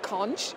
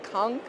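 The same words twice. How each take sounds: First: The word is pronounced the British way. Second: The word is pronounced the Bahamian way. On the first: The speaker calls it wrong. "The British would call it conch" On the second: The speaker calls it right. "the correct pronunciation, if you're a true, true Bahamian, is conch"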